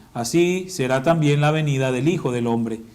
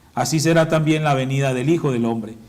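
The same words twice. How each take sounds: Both takes have the same delivery.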